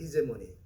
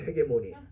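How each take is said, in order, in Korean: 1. 'hee'로 시작해요. 부드러운 j 소리예요. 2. 'heh'로 시작해요. 센 g 소리예요. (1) "영어는 그렇게 발음하죠. 히제모니라고 그래요" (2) "우리 한국 사람들은 헤게모니라고 그러죠"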